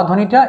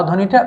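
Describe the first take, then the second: No difference in how they are said.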